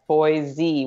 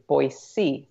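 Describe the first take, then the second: First: The second consonant is a buzzing Z sound. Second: The second consonant is a hissing S sound. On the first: The speaker is not from the area. The speaker calls it wrong. "they'll say like Boise with a Z" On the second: The speaker is from the area. The speaker calls it right. "the proper pronunciation is actually Boise, like almost like boy with the letter C"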